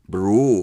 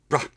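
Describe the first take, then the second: First: The final syllable has a full, rounded vowel. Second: The final syllable has a short, reduced vowel. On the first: The speaker calls it wrong. "you're not pronouncing things with Edinburgh, bro" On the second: The speaker calls it right. "It's brah"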